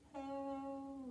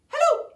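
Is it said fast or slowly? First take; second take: slowly; fast. First: It is said very slowly. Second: It is said very fast.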